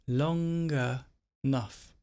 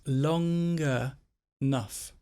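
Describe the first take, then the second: The two takes are said the same way.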